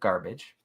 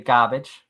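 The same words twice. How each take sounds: First: The r in garbage is pronounced, general American style. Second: The r in garbage is dropped, Boston style. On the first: "instead of garbage" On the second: "she also likes to say garbage"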